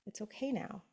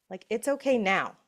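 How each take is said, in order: First: Much softer, gentle okay; whisper-soft comfort; soft reassurance. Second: Said in the usual way. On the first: Shown as a demonstration. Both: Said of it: "your intuition gets to come in and go".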